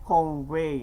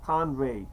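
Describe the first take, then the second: First: "convey" with first syllable as "kong"; accented pronunciation. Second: "convey" with first syllable as "kahn"; corrected pronunciation. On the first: Speaker catching own accent slip, "convey" said as "kong-vay". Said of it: "See, I say convey instead of convey". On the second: Speaker correcting own accent, "convey" said as "kahn-vay". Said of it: "instead of convey". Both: Shown as a demonstration.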